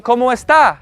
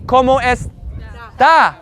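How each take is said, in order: First: Said in the usual way. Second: "está" split slowly, final A held apart; drawn-out final A. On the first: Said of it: "How is she?". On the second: Shown as a demonstration. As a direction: say "está" slowly, setting off the last syllable. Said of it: "there's an A and not an E".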